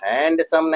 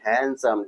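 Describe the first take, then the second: First: The d sound is clearly pronounced. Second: The d sound is left out. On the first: The speaker calls it wrong. "हैंडसम नहीं" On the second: The speaker calls it right. "डी silent होता है इसमें"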